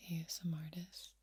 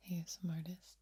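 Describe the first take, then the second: No difference in how they are said.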